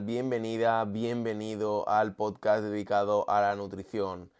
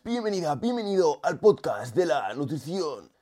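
First: It is said in his normal voice. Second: It is said in an unusual, put-on voice.

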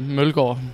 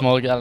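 First: The name is said with Danish pronunciation. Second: The name is said with English pronunciation. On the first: "in pure Danish, I would say Mølgaard" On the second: "that's why we got to go with Mølgaard instead"

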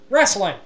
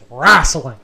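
First: It is said in a standard accent. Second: It is said in a Southern US accent.

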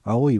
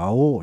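First: It ends in a clear 'i', standard Japanese. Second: The ending vowel is stretched, Tokai dialect style.

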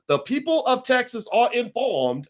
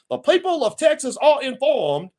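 First: It is read in the speaker's usual accent. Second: It is read in a Southern accent.

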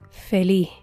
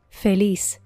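First: The word ends in a faint breath. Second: The word ends in a clear s sound. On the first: "con la pronunciación puertorriqueña" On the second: "la traducción en español estándar"

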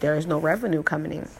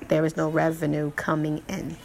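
First: The words are spoken loosely, not clearly enunciated. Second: The words are spoken carefully, each clearly enunciated. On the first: The speaker calls it wrong. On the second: The speaker calls it right.

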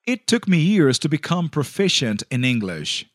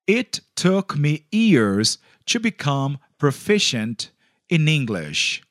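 First: It is said at normal speed. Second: It is said slowly.

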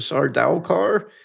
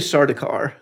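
First: The middle syllable has an ow vowel. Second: The middle syllable has an oo vowel. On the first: This follows the spelling. "Ought to be an ow in there. So Sardaukar does not really roll off the tongue" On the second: This is how most people say it. "most people say Sardaukar. ... It would be D-U"

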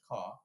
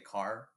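First: It is said British-style with no R at all. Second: It is said with a heavy West Coast R.

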